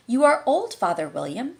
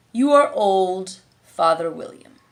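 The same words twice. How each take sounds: First: Dutiful schoolgirl recitation, higher; Alice reciting. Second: Slow, drawn-out command; lazy caterpillar, stretching the words; caterpillar ordering. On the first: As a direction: recite it like a lesson. Alice folded her hands and began. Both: A narrator's reading.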